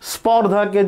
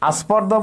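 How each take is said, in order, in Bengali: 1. শব্দটি সরাসরি sp যুক্তব্যঞ্জন দিয়ে শুরু হয়। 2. sp যুক্তব্যঞ্জনের আগে একটি অতিরিক্ত a স্বরধ্বনি আসে।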